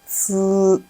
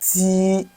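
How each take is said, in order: First: The syllable ends in a hissing, buzzing sound. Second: The syllable ends in a clear 'ee' vowel. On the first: The speaker calls it right. "Then when it goes with E, we'll have tss" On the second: The speaker calls it wrong. "people pronounce it this way when it goes with E"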